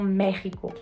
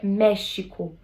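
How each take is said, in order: First: It is said with the modern Spanish sound. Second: It is said with the original Nahuatl sound. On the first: The speaker calls it wrong. "Tanto lá quanto na própria Espanha, as pessoas falam México" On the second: The speaker calls it right. "de acordo com o povo mexica, a pronúncia é México"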